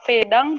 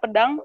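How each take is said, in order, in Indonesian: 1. Vokal pertama adalah bunyi e yang jelas. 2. Vokal pertama adalah bunyi schwa. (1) "kita bilang"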